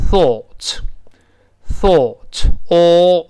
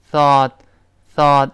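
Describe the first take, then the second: First: "thought" very slow with long rounded aw; British pronunciation. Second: "thought" with open ah, like thaht; American pronunciation. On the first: Teacher models British English, "thought" slow with rounded vowel. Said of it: "英式发音". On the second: Teacher models American English, "thought" with open ah. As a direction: unround the vowel in "thought". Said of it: "就这么一个声音". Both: Shown as a demonstration.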